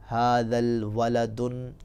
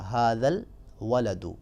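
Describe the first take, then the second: First: The last word ends with an added n sound. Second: The last word ends with a plain u sound. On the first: The speaker calls it wrong. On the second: The speaker calls it right.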